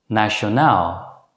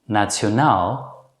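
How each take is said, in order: First: The 'ti' sounds like a plain 'sh'. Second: The 'ti' sounds like 'tsh' with a t. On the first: "usually pronounced as show" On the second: "Alternatively, you can pronounce these words as"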